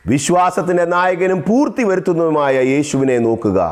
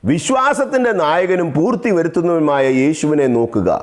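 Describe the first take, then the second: No difference in how they are said.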